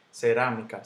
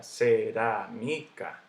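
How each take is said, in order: First: Said in the usual way. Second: Cerámica drawn out as ce-rá-mi-ca; syllable by syllable. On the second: Shown as a demonstration. Teacher breaking the word up for students, slow separate syllables. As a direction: slowly sound out each syllable of cerámica. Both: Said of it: "Digo cerámica".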